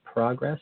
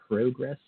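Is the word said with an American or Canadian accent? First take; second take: American; Canadian. First: The word is said with an American accent. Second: The word is said with a Canadian accent. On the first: "instead of progress" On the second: "I can speak Canadian every once in a while"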